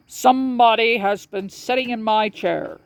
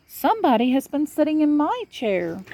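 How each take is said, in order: First: The big papa bear, lightly voiced and a bit higher; a light take on the big bear, grumbling; great big bear. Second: Higher, mama bear voice; middle-sized bear. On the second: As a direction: play the middle bear, higher than papa. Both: A narrator's reading.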